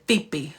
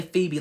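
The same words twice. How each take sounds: First: "Phoebe" broken into two syllables; said in parts. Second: Said in the usual way. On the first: Retold or imitated. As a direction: imitate her saying "Phoebe" in two parts. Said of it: "she would say it in parts". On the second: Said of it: "She wouldn't say Phoebe".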